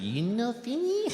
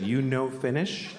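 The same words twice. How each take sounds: First: It is said in a Japanese accent. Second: It is said in his own plain voice.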